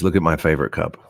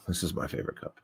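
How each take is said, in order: First: Said in the usual way. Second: Unvoiced whisper. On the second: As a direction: whisper it to the camera. Whispered line about cup.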